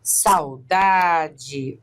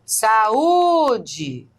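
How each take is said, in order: First: "saudade" with sau as one syllable, stress on DA; diphthong in saudade. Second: "Saúde" as sa-UU-de, the u high, long and loud; hiatus in saúde. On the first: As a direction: run a and u together, then lean on DA in "saudade". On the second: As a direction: break the a from a strongly stressed u in "Saúde". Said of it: "esse A e esse U são pronunciados". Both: Shown as a demonstration.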